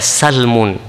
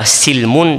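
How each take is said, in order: First: The first vowel is an a sound. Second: The first vowel is an i sound. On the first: "bisa dibaca salmun" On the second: "bisa dibaca silmun"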